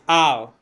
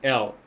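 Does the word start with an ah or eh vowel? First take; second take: ah; eh. First: The word begins with an open ah vowel. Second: The word begins with an eh vowel. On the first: The speaker calls it right. "The word there is Al" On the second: The speaker calls it wrong. "they've changed it to now be L"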